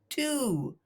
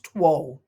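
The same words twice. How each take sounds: First: No w sound is heard after the t. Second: A w sound is heard after the t. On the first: The speaker calls it right. "It's pronounced two" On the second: The speaker calls it wrong. "it looks like it should be pronounced two, but it's not"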